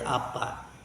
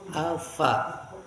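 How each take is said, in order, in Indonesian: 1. Konsonan di tengah adalah bunyi p. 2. Konsonan di tengah adalah bunyi f.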